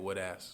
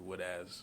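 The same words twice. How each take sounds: First: The Z sound is weak and barely heard. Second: The Z sound is clearly emphasized. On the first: The speaker calls it wrong. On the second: The speaker calls it right.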